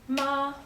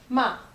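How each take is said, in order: First: The pitch stays high and level. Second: The pitch falls sharply from high. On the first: It means mother. "Ma is mother" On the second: It means to scold. "ma is to scold"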